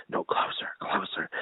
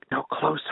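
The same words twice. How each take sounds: First: Barely audible whisper, imitating a child; secretive whisper. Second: Low and hushed, not yet whispered; secretive child. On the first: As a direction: whisper it as if drawing dad's ear closer. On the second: Retold or imitated. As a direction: softly imitate a kid beckoning dad nearer. Retold child drawing dad nearer.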